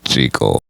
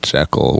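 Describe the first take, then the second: First: The name rhymes with the word treacle. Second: The name does not rhyme with treacle. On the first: This is how the author meant it. The speaker calls it right. "Robert Louis Stevenson intended for the name to be pronounced Jekyll" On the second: This is how later films said it. The speaker calls it wrong. "Every film after that said Jekyll, which unfortunately led to the mispronunciation"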